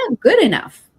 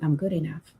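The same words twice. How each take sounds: First: It is said with strong, felt emotion. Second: It is said flatly, without conviction.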